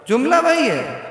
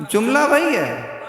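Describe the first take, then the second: Both takes have the same delivery.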